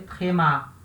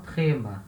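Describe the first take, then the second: First: The stress is on the last syllable. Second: The stress is on the first syllable. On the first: The speaker calls it right. "a gente lê tréma" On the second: The speaker calls it wrong. "E não trema"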